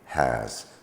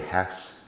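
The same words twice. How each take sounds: First: The word ends with a z sound. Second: The word ends with an s sound. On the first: The speaker calls it right. "it's got a z sound at the end" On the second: The speaker calls it wrong. "we don't say has"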